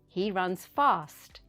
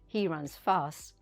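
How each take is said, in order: First: The T at the end of fast is pronounced. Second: The T at the end of fast is dropped. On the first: The speaker calls it right. "say the T sound" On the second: The speaker calls it wrong. "Don't say"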